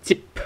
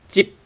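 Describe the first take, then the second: First: "jip" with a popped final p; the mistaken "jip" with an audible p release; released p. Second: "jip" ending on closed lips, no puff; "jip" with a silent, stopped final p; unreleased p. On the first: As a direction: puff out the p at the end of "jip". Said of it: "not jip". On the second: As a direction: close the mouth on the p of "jip" and don't release it. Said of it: "without p". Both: Shown as a demonstration.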